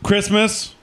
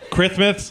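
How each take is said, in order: First: The s sound is said clearly, without a lisp. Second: The s sound is lisped, said through the teeth.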